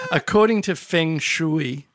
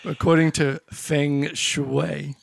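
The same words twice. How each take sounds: First: "Shui" said like "shoo-ee", slowly; mispronounced Feng Shui. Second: "Shui" said as "shway", slow and careful; corrected Feng Shui. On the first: Real, not acted. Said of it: "Feng what?". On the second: Shown as a demonstration. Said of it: "Shui is correct".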